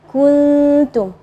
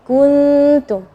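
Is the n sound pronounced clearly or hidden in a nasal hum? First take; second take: hidden; hidden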